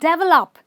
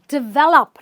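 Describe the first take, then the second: First: The stress is on the first syllable. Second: The stress is on the second syllable. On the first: The speaker calls it wrong. "not develop" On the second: The speaker calls it right. "It's develop, ... So you stress the vel"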